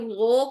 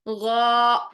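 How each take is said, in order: First: The lips round into an o-like vowel. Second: The lips stay slightly open, not rounded. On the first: The speaker calls it wrong. "ना तो आपने गो करना है" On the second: The speaker calls it right. "ये साउंड रखनी है आपने, होंठ गोल नहीं करने"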